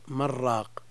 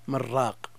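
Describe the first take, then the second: First: The words run together with the n merged. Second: The same.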